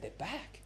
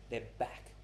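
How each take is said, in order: First: THEIR BACK higher, rising into a question; puzzled echo. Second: THEIR BACK as a low, soft statement; quiet statement. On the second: Gives answer to own question. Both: Retold or imitated.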